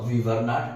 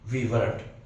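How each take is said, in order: First: The words are said in full, three syllables. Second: The words are contracted into two syllables. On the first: The speaker calls it wrong. "we mostly do not say that" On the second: The speaker calls it right. "We say we weren't"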